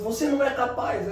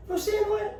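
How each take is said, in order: First: Said in the usual way. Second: High, childlike mocking squeak; pitched way up, teasing like a kid; distorted mocking voice. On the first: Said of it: "Na hora que ela fala assim". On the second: Shown as a demonstration. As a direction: parrot it back in a silly high voice. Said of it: "Ou distorce".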